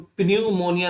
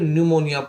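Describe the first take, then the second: First: The word begins with a P sound. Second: The word begins with an N sound. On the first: The speaker calls it wrong. "प्न्यूमोनिया ना पढ़ के" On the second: The speaker calls it right. "न्यूमोनिया पढ़ेंगे"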